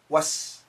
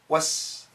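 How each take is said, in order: First: The T sound is dropped before the S. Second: The T sound is dropped before the S.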